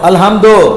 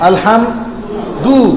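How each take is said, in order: First: The final vowel sounds like o. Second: The final vowel sounds like u.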